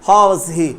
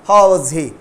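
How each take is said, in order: The two takes are said the same way.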